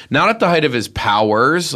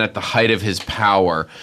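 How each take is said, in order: First: "powers" set against the singular, voice lifted on the correction; contrastive stress. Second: Said in the usual way. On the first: Real, not acted. Correcting the phrase about the filmmaker, contrastive stress on "powers". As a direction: lean on "powers", marking the plural.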